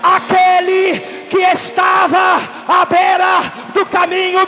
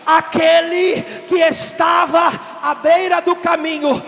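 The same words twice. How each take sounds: First: It is said at a louder, fuller volume. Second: It is said at a quieter, softer volume.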